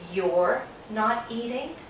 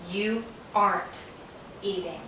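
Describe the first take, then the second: First: 'Are' is shortened onto 'you'; 'not' is full. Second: 'Not' is shortened onto 'are'; 'you' is separate. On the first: "Sometimes Americans say" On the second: "We take are, not, aren't"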